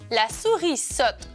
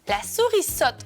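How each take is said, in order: First: The phrase is said at a slow pace. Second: The phrase is said at a faster pace.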